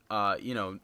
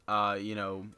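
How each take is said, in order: Both takes have the same delivery.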